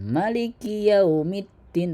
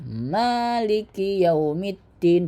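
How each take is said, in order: First: The first vowel of maliki is short. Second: The first vowel of maliki is long. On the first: The speaker calls it wrong. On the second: The speaker calls it right. "Ma hurufnya panjang"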